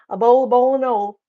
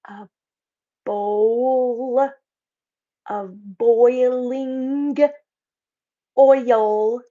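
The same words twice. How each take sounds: First: It is said in a relaxed Southern accent. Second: It is said carefully in a standard accent. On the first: This is how she talks every day. "now say it like you normally say it" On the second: The speaker is working hard to avoid her usual speech. "now say it correctly"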